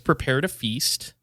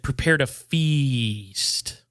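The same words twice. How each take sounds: First: The words are said at normal length. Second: The words are drawn out and stretched long.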